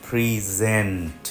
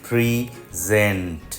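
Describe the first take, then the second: No difference in how they are said.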